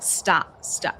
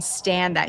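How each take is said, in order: First: It is said in a Welsh accent. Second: It is said in a plain American accent. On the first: "you can hear, like, his Welsh accent come out a little bit" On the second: "Instead of saying "stand that,""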